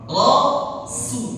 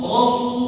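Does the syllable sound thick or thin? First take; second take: thin; thick. First: Spread, smiling lips give a thin, light sound. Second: Rounded, pushed-out lips give a thick, heavy sound. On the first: The speaker calls it right. "kayak orang mau senyum gitu... sinnya nggak tebal" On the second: The speaker calls it wrong. "bibir kita langsung... monyong"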